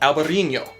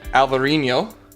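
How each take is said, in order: First: It is said with a b and ñ sound. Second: It is said with a v and nasal nh. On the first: This is the name used in Spain. "in Spain, it's called Albarino" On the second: This is the name used in Portugal. "in Portugal, it's called Alvarinho"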